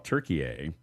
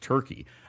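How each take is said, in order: First: It is said as the Turkish name Türkiye. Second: It is said as the English word Turkey. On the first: This is the new official name. "they changed their name. It's now Turkey" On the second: This is the old name. "I thought it was always Turkey"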